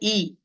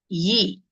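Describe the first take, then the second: First: It starts straight on the vowel, with no y sound. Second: It starts with a clear y sound before the vowel. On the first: The speaker calls it wrong. "Don't say E" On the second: The speaker calls it right. "It is Yi"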